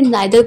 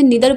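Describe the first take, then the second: First: The first vowel sounds like 'nye'. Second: The first vowel sounds like 'nee'. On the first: "या फिर नाइदर pronounce भी कर सकते हैं" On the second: "या तो इसे निदर पढ़ सकते हैं"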